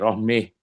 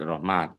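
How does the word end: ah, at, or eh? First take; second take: eh; at. First: The final vowel is bent toward eh. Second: The word ends with a clear t sound. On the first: "dibaca dengan apa itu imalah lagi rohmeh" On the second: "dengan tak Rohmat"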